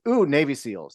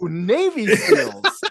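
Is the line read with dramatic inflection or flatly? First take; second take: flatly; dramatic. First: The line is read in a plain, ordinary way. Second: The line is read with the film's inflection. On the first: This is not how people quote the line. The speaker calls it wrong. "nobody goes" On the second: This is how people quote the line. The speaker calls it right. "They go"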